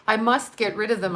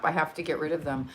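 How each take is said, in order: First: "must" pressed firmly with mock resolve; stress on must. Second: Fast muttered aside under the breath; quick quiet mutter. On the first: Host jokingly vows to clear her messages, leaning on "must". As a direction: lean into "must" like a solemn vow. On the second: Busy host mutters to herself while clearing messages, quiet and quick. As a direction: rattle it off softly to yourself. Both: Real, not acted. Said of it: "I tell you, I must".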